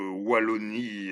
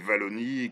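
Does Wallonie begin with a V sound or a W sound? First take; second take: W sound; V sound. First: The word begins with a W sound. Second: The word begins with a V sound. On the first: This is how it is said in Belgium. "chez nous, dans notre petit royaume, on prononce le W de Wallonie comme ça" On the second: This is how it is said in France. "je sais que vous aimez le prononcer Wallonie, comme dans les wagonnets"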